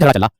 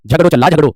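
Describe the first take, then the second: First: झगड़ा ending in an open "aa"; Khari Boli आ ending. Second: झगड़ो ending in a round "oh"; Braj ओ ending. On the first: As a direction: say झगड़ा with the standard long आ at the end. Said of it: "खड़ी बोली में झगड़ा". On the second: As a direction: say झगड़ो with a Braj ओ in place of the final आ. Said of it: "ब्रजभाषा में झगड़ो". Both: Shown as a demonstration.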